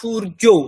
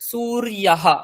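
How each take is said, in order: First: It ends on the vowel with no breathy h. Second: It ends with a breathy h after the vowel.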